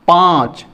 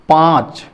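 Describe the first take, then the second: No difference in how they are said.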